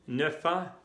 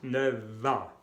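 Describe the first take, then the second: First: Neuf ans with a plain f before ans; wrong linking. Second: Neuf ans said nøv a, slow and careful; f linked as v. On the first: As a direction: say Neuf ans keeping the f hard. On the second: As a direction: link neuf ans with a v sound, slowly. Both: Shown as a demonstration. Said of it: "no, neuf ans".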